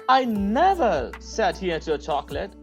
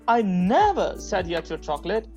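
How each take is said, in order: First: The stress is on the word never. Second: The same.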